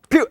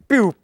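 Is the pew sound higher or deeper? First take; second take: higher; deeper. First: The sound effect is higher and lighter. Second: The sound effect is deeper and heavier.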